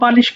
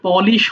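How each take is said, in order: First: The first syllable has an 'a' vowel. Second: The first syllable has an 'o' vowel. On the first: The speaker calls it wrong. "আমরা ভুল করে পালিশ বলি" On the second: The speaker calls it right. "ওটা আসলে পলিশ হয়"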